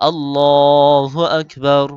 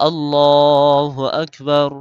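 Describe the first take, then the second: Both takes have the same delivery.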